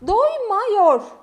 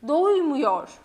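First: The vowel before -yor is a wide A. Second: The vowel before -yor is a narrow U. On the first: The speaker calls it wrong. "Doymuyor değil" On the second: The speaker calls it right. "Gördüğümüz gibi A, U'ya döndü"

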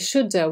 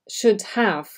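First: The words are reduced and run together. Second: Both words are pronounced fully and separately.

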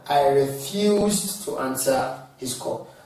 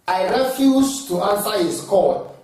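First: 'Refuse' is stressed on its second syllable. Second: 'Refuse' is stressed on its first syllable. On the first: The speaker calls it right. "instead of" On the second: The speaker calls it wrong. "just as you don't say"

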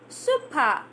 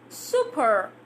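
First: The ending has no r sound. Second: The ending has an r sound. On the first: "drops down" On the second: "goes up"

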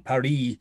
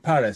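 First: The name has a non-English pronunciation. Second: The name has an English pronunciation. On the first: "we don't say Paris every time" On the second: "we say Paris"

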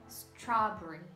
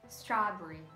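No difference in how they are said.

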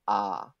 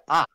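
First: The pitch falls gently from mid to low. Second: The pitch falls sharply from high to low. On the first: "3-1 is a more subtle like fall" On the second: "like you're scolding someone"

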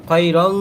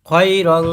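Both takes have the same delivery.

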